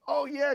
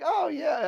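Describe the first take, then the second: First: It is said loud, fast and hyped up. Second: It is said quietly in a calm, relaxed way. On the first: A flashy salesman-style pitch. "I was very kind of like, ... the crazy Eddie routine" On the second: A toned-down, laid-back pitch. "I kind of was subdued a little bit"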